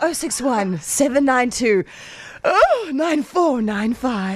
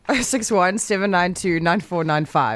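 First: The number is read expressively, with feeling. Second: The number is read in a flat, plain way.

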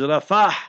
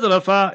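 First: The word ends with an audible h sound. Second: The word ends on a plain vowel, no h. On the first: The speaker calls it right. "it's Rafah. R-A-F-A-H. So that is proper pronunciation" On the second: The speaker calls it wrong. "So it's not Rafa"

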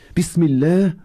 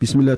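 First: It is said slowly with heartfelt feeling. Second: It is said quickly and offhandedly. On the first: The words are meant sincerely. The speaker calls it right. "You say it with meaning and feeling" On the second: The words are said in passing without thought. The speaker calls it wrong. "it's not by the way going out of the house"

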